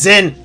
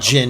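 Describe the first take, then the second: First: The name begins with a z sound. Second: The name begins with a j sound. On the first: The speaker calls it right. "It's written as Zin. His name is Zin. Just fucking pronounce it correctly" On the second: The speaker calls it wrong. "I hate the fact that they call him Jin"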